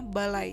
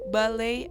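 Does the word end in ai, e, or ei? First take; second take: ai; ei. First: The word ends in ai. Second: The word ends in ei. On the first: The speaker calls it right. "semestinya balai" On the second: The speaker calls it wrong. "dilafalkan balei"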